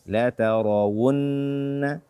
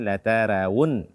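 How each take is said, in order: First: The r sound is thick and heavy. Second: The r sound is thin and light. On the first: The speaker calls it right. "bacalah dengan tebal karena dia fathah" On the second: The speaker calls it wrong. "Tidak boleh dibaca la tarawun"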